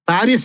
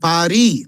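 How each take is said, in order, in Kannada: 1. ಹೆಸರು ಕೇಳಿಸುವ s ನಲ್ಲಿ ಕೊನೆಗೊಳ್ಳುತ್ತದೆ. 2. ಹೆಸರು ಸ್ವರದಲ್ಲಿ ಕೊನೆಗೊಳ್ಳುತ್ತದೆ, s ಇಲ್ಲ. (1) "ಪ್ಯಾರಿಸ್ ಅಲ್ಲ"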